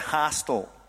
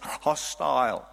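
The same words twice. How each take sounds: First: It has an American pronunciation. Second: It has a South African pronunciation. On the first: The speaker calls it right. "The Americans say hostile" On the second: The speaker calls it wrong. "We say hostile"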